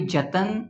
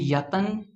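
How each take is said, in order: First: The word begins with a j sound. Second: The word begins with a y sound. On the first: "it will not be jatan" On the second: "it will not be yatan"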